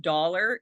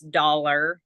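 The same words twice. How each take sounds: First: "dollar" in the speaker's own Canadian way; usual "dollar". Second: "dollar" with a nasal American vowel. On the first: Shown as a demonstration. Contrasting her word with the American one, own pronunciation. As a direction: say "dollar" without nasality. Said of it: "instead of dollar". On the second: Retold or imitated. Imitating how nasally Americans say it, nasal pronunciation. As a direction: push "dollar" through the nose, American style. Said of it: "they're more nasally".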